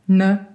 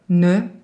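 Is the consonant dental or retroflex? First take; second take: retroflex; dental. First: The consonant is made with the tongue tip curled back. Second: The consonant is made with the tongue at the teeth. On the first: "des consonnes qui sont rétroflexes" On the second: "des consonnes qui sont dentales"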